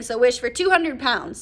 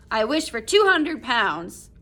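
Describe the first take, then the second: First: Said in the usual way. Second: Slow, louder "I wish for two hundred pounds", every word spelled out; distinctly. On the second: A narrator's reading. Old man holding up the paw to make his wish, slow and distinct. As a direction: lay out each word of "two hundred pounds" slowly and clearly. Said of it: "said the old man distinctly".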